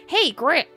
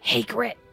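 First: It is said in Fanny's character voice. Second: It is said in a voice that isn't Fanny's.

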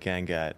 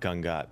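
First: The name has an Americanized pronunciation. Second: The name has its Indian pronunciation. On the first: This is the easier version Americans use. "it's way easier for you people to say Gangat" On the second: This is how the name is really pronounced. "not Gangat"

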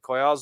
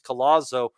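First: The double L is not said as L. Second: The double L is said as L. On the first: The speaker calls it right. "Notice I'm saying Collazo because" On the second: The speaker calls it wrong. "after all these years of saying Luis Collazo, we were actually all wrong"

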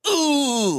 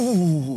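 First: The sound is said forcefully, with strong effort. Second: The sound is said lightly, without force. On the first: The final all-out attack at the end. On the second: An ordinary attack early in the fight.

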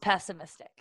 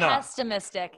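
First: The word is said without an extra t sound. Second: The word is said with an extra t sound. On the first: The speaker calls it right. "It's pessimistic" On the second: The speaker calls it wrong. "It's not pessimistic. You're putting an extra T in there that you don't need"

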